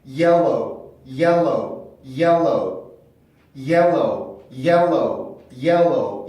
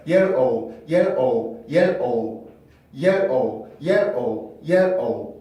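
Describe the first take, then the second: First: "yellow"를 L이 두 개인 듯 '옐로우'로; "yellow"의 L을 다음 음절까지 넘겨서; 이어진 자연스러운 발음. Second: "yell, O"를 음절마다 끊어서; "O" 앞에 L을 붙이지 않고 '옐-오우'로; 음절로 끊은 발음. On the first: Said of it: "L 발음이 하나가 더 있는 것처럼". ("yellow", 둘째 음절도 L로 시작하게) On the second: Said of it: "제가 한 대로 끊어서 발음한다고". ("yell, O", L은 첫 음절 끝에만) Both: Shown as a demonstration.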